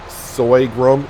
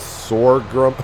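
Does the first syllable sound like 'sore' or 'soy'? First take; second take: soy; sore. First: The first syllable sounds like 'soy'. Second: The first syllable sounds like 'sore'. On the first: The speaker calls it wrong. "I've been pronouncing it Soygrum" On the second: The speaker calls it right. "It's Sorghum"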